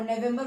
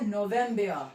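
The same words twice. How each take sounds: First: Said in the usual way. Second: नवंबर as "no-VEM-bea", final R silent; German pronunciation. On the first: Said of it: "हम क्या कहते हैं". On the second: Shown as a demonstration. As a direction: open नवंबर on "no", end on a falling "bea". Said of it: "नवंबर को हम क्या कहते".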